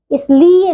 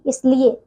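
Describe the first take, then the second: First: इसलिए with a drawn-out "lee"; mispronounced इसलिए. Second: Said in the usual way. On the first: Shown as a demonstration. Teacher shows pupils the error, long "lee" in इसलिए. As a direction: stretch the middle of इसलिए, "is-LEE-e". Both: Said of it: "नहीं".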